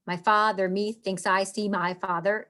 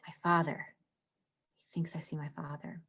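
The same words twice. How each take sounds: First: Said in the usual way. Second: Hushed, breathy whisper of the line. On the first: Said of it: "No, it doesn't work". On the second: Shown as a demonstration. Teacher reading Hamlet to class, in a whisper. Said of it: "It stands out".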